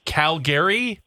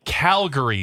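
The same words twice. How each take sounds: First: Calgary as "Cal-GARE-ee"; slow, questioning Calgary ending like Gary; disputed alternative pronunciation. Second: Calgary as "CAL-guh-ree"; Calgary with a reduced middle vowel; receptionist's pronunciation. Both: Shown as a demonstration. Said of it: "Someone said it's".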